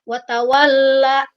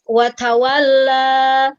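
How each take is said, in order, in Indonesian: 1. Vokal akhir ditahan dan terputus. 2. Vokal akhir mengalir bebas. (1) "a-nya harus mengalir, jangan ditahan. Jangan watawalla ya, jangan seperti itu" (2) "Tetapi harus watawalla"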